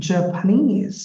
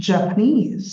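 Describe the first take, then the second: No difference in how they are said.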